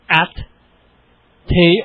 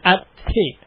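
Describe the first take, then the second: First: There is a long gap between the syllables. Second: The syllables are said close together. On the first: The speaker calls it wrong. "Do I have to wait a long time between the syllables?" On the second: The speaker calls it right. "Or can I move them together a little closer?"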